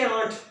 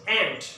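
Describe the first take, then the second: First: The vowel is a broad ah sound. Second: The vowel is a flat a as in cat. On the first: The speaker calls it wrong. "A for एंट्स के आंट" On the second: The speaker calls it right. "It's एंट"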